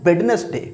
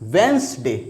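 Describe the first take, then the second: First: The d is sounded: wed-nes-day, three syllables. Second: The d is silent: wenz-day, two syllables. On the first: The speaker calls it wrong. "जो कि incorrect है, totally incorrect है।" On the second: The speaker calls it right. "इसमें डी जो है ये रहेगा silent"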